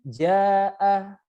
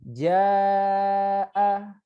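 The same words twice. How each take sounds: First: The vowel is held briefly, two beats. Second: The vowel is held longer, four beats. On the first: "Kalau dua harokat berarti jaa" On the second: "Kalau empat harokat dua kali ayun"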